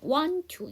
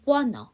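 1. t 하나는 빠집니다. 'to'는 t를 유지해요. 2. t 소리 두 개가 모두 빠져서 'wanna'가 돼요. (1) "tt니까 앞에 t를 하지 마세요. 그럼 want to 이렇게 하는 방법이 첫 번째" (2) "t 발음을 하지 않고 n을 넘기고요... 터를 만들어 버리세요. 그러면 n이 넘어가니까 wanna"

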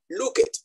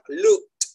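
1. La terminación se dice como una sílaba extra. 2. La terminación se dice como una T corta.

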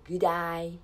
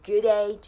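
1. 'day' の母音は 'eye' のように聞こえます。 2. 'day' の母音は 'ay' のように聞こえます。

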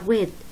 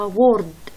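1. لا يُنطق صوت r قبل d. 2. يُنطق صوت r قبل d. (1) "ايه ايه وما في ار" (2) "بلفظوها وورد"

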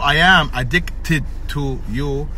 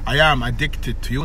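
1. ينطق الـ d والـ t منفصلين. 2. الـ d الأخيرة في addicted تندمج مع الـ t.

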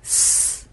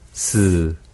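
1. 모음 없이 s만 나는 소리예요. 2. s 뒤에 '으' 모음이 붙어 있어요. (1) "없을 때는 스" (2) "으 몸이 있는 거고"

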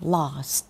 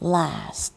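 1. พูดด้วยสำเนียงอังกฤษค่ะ 2. พูดด้วยสำเนียงอเมริกันค่ะ (1) "อังกฤษก็จะเป็น" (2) "อเมริกันก็จะเป็น"

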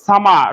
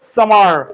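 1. শেষের r ধ্বনিটি বাদ যায়। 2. শেষের r ধ্বনিটি স্পষ্টভাবে উচ্চারণ করা হয়। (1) "ব্রিটিশরা এটাকে উচ্চারণ করে না, তারা এই সামার শব্দটাকে বলবে সামা" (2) "আমেরিকানরা আবার কিভাবে বলবে জানো? ... ওরা রটাকে একটা টানে নিয়ে আসবে"

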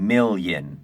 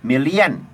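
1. พยางค์สุดท้ายฟังเหมือน 'yen' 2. พยางค์สุดท้ายมีสระ 'ee-a' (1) "จริงๆแล้วไม่มีสระเอียนะครับ...เป็นเยิน" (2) "หลายคนคิดผิดนะครับว่าคำพวกนี้มีเสียงสระเอียเข้ามานะครับ"

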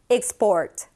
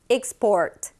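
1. 첫 음절은 'ik'처럼 들려요. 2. 첫 음절은 'ik'처럼 들려요.

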